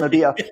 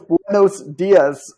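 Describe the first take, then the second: First: Dominican style, the final S sounds are dropped. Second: The final S sounds are clearly pronounced.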